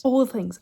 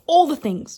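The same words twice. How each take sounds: First: Gentler repeat of "all the things"; milder excited echo; softer echo. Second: High and loud, punching all; excited cry of "All the things"; emphatic gush. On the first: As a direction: let the second one settle a little. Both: Real, not acted. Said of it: "this book is making me feel it".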